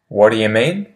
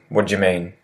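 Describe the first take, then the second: First: The words 'do you' are said more fully. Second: The words 'do you' are squeezed together and reduced.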